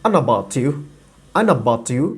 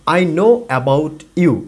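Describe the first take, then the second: First: "I know about you" run together like "an a bati u"; "I know about you" blended quickly into one flow; native linked speech. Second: "I know about you" said very slowly, word by word; slow careful reading. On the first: Teacher imitates how natives run the words together. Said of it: "এটাকে যখন একজন native বলে তখন বলে". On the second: Teacher reads the phrase slowly before the native version. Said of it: "এটাকে যখন একজন native বলে". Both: Shown as a demonstration.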